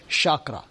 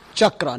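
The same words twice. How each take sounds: First: The word begins with an 'sh' sound. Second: The word begins with a 'ch' sound. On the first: The speaker calls it wrong. "not chakra... It's not S-H" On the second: The speaker calls it right. "It is C-H. Like in a child"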